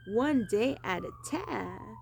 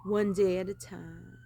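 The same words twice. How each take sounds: First: Slow, higher Southern drawl; lightly done Southern accent, higher and slow; put-on Southern accent. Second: Said in the usual way. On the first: Shown as a demonstration. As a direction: lean into a Southern accent, drawn out. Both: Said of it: "That is the other accent I would choose".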